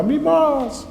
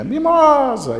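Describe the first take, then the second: First: Very high call echoing back; shouted echo. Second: High, loud drawn-out call; shouted call. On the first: Valley answers the boy's call, echoing shout. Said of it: "lá no fundo do vale gritava". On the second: Boy calls his lost little goat, shouting. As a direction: cry out the name into a valley. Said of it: "começa a gritar o nome daquela cabritinha". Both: Acted.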